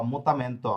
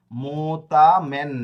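First: Said in the usual way. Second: মোতা মেন drawn out slowly and louder, syllable by syllable; slow sounded-out syllables. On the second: Shown as a demonstration. Teacher sounding out a Spanish word for students, slow and loud. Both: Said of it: "এন এর উচ্চারণটা কি?".

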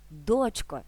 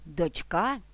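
First: ДОЧко, first syllable stressed; "дочко" accented on the opening syllable. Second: ДочКА, final syllable stressed; "Дочка" accented on the ending; stress on last syllable. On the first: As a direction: hit ДОЧ in "дочко", then fall. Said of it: "наголос у цьому слові перетягується". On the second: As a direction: put the weight on КА in "Дочка". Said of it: "на останньому складі". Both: Shown as a demonstration.

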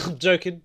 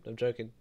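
First: Louder, playful "I'm joking"; laughing apology. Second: Quieter, sincere "I'm joking"; softer apology. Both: Real, not acted.

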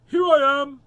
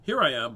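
First: Very loud, high doggy shout; high yelped answer; barked out. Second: Loud bark at normal pitch; loud doggy announcement. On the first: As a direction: bark the words like an eager dog. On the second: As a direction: bark it out firmly without squeaking. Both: Acted. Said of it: "barked Amos".

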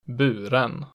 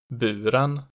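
First: Buren peaking at once, dropping sharply, rising late; type two B accent two. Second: Buren falling on the first syllable, rising on the second; type two B accent one. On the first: Teacher showing regional tones, buren with double-peak accent two. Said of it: "it immediately peaks and then drops sharply". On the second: Teacher showing regional tones, Buren with falling-rising accent one. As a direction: dip Buren, then peak on the ending. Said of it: "falls in the stressed syllable and then rises". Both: Shown as a demonstration.

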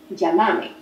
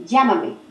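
First: "Llámame" stressed on the middle syllable, MA; Argentine stress, llamAme. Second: "Llámame" stressed on LLA; stress on first syllable. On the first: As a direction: say "Llámame" as lla-MA-me. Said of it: "no está en la misma sílaba". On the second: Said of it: "o que me llames". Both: Shown as a demonstration.

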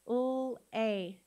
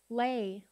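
First: L-A as held lll, then long ay; sounded out. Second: Said in the usual way. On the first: Shown as a demonstration. Teacher sounding out with the class, L-A in two sounds. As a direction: separate the two sounds of L-A, not letter names. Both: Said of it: "let's sound it out together".

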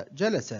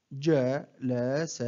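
First: Said in the usual way. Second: One short syllable at a time, with pauses; broken into syllables. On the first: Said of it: "أقطع الكلمة". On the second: Shown as a demonstration. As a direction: separate each syllable for a learner to copy. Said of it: "أقطع الكلمة إلى مقاطع قصيرة". (تقطيع الكلمة مقطعًا مقطعًا بوقفات)

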